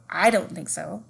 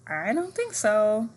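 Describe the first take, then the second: First: It sounds firm and certain. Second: It sounds unsure and hesitant.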